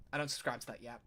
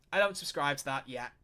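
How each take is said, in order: First: Softer, under his breath, to himself; repeated more softly as a private echo; quiet repeat. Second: Said in the usual way. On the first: Real, not acted. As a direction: mutter it again as an afterthought.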